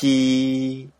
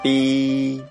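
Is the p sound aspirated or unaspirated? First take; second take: aspirated; unaspirated. First: The p is released with a strong puff. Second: The p is released with no strong puff. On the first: "有気音" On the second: "無気音"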